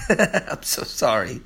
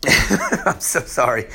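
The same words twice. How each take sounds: First: Soft giggly sorry through laughter; laughing apology. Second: Laughing apology. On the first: Apologising to viewers for a fumbled line, laughing softly. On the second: Still apologising to viewers, chuckling sheepishly. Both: Real, not acted.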